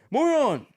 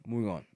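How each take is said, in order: First: High, loud "Moving on"; loud announcement. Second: Said in the usual way. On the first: Real, not acted. Switching topics for viewers, loudly announced. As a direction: call it out to change topic.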